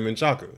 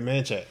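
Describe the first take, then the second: First: The name is said with three syllables. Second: The name is said with two syllables. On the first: This is how Mexican residents of the area say it. "All the Mexicans that lived over there, they would say Manchaca"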